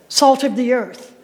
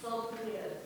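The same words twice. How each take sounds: First: Said in the usual way. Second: Barely voiced, much softer whisper. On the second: Real, not acted. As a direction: breathe the phrase out as a whisper. Repeating the congregation's answer.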